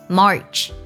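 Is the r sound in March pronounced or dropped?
pronounced. The vowel has an r-coloured sound. "美式加上儿化音March"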